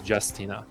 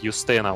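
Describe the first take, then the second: First: The name is said in an English way. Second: The name is said in a Polish way. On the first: It is the adapted form for English audiences. "the English voice actress pronounces it as" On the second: It is the more fitting native form. "more appropriate Polish, you know Slavic way to pronounce the name"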